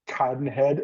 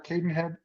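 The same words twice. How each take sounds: First: The name is said in a fussy, precise way. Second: The name is said in the everyday casual way.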